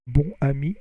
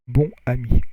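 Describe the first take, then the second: First: The vowel is oral, linked with an N. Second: The vowel is nasal, with no linking N. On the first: "But if you do the liaison, bonne" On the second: "But if you don't do the liaison, it's bon"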